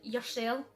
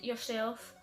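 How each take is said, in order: First: The final F sound is dropped. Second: The final F sound is pronounced.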